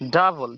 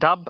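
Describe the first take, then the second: First: The b is linked straight into an l. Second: It ends on the b with no l. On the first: The speaker calls it right. "বকে পর লয়ের সাথে লাগান" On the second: The speaker calls it wrong. "ডাব এবারে না"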